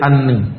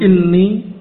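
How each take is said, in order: First: The first vowel is an 'a' sound. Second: The first vowel is an 'i' sound. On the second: "kasrah boleh"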